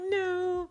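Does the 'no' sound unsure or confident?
confident. The no sounds firm and confident.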